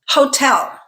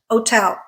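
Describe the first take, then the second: First: The word begins with an h sound. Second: The word begins with no h sound. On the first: "I always say hotel with the sound at the beginning" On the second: "without the at the beginning, treating the H as silent"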